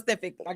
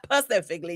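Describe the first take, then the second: First: The word is said with its opening S sound. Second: The word is said without its opening S sound. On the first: The speaker calls it right. "gotta put that S in there" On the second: The speaker calls it wrong. "Not specifically"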